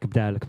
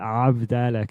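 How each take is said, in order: First: The first syllable is swallowed, starting with b. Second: The first syllable is pronounced, starting with a vowel. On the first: This is how the grandmother casually said it. "she would kind of eat the first syllable a little bit" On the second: This is the word in its full form. "it has a ayin at the beginning"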